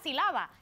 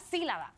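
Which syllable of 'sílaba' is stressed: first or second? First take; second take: second; first. First: The stress falls on the second syllable. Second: The stress falls on the first syllable. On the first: The speaker calls it wrong. "no es la sílaba" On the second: The speaker calls it right. "lleva tilde, es la sílaba"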